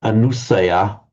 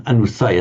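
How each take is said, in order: First: Anusaya with the stress on the anu prefix; wrong stress on prefix. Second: Anusaya with anu unstressed, stress on saya; right stress, after prefix. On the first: Teacher showing what sounds wrong, Anusaya stressed on the prefix anu. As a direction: lean on anu in Anusaya, not on saya. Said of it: "just sounds wrong to me". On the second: Teacher showing what sounds right, Anusaya stressed after the prefix. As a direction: keep anu light and lean on saya in Anusaya. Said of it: "sounds right". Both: Shown as a demonstration.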